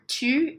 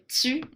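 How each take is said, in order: First: Standard French, with a plain t sound. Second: Canadian French, with an s-like hiss after t.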